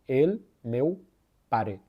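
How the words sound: The first and final vowels sound like e. "É Catalunha Sul"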